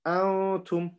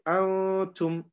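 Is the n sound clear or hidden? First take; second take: hidden; hidden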